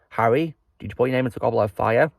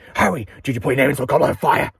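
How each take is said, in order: First: The question is asked in a calm voice. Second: The question is asked in an angry voice.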